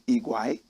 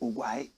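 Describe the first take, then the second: First: The name begins with an 'ee' vowel. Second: The name begins with an 'oh' vowel. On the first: The speaker calls it right. "correct pronunciation Igwai" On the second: The speaker calls it wrong. "Some people say Ogwai"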